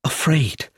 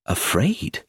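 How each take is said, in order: First: "afraid" said firmly with a falling close; firm confirmation. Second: "Afraid?" asked back with a rising, questioning lift; a light questioning echo of "Afraid?"; puzzled echo. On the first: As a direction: settle "afraid" as a plain fact, falling. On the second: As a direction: repeat "Afraid?" as a doubtful question. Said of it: "I repeated". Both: A narrator's reading.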